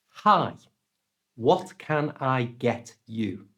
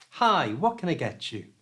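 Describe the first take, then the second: First: It is said slowly with separate words. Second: It is said fast with linked words.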